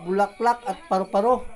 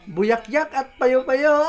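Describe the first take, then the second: First: The l and r sounds are pronounced normally. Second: The l and r sounds become y sounds. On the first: "ang salita bulaklak at paru-paro" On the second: "taga Surigao, iba man salita doon"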